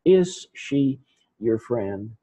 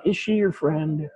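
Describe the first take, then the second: First: "Is she your friend?" slowly, word by word; slow model reading. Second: "Is she your friend?" asked in one connected run, high on "she"; question intonation. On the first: Teacher models question word by word. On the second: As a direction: ask "Is she your friend?" fluently, pitch lifted early. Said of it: "I'm asking you this question". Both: Shown as a demonstration.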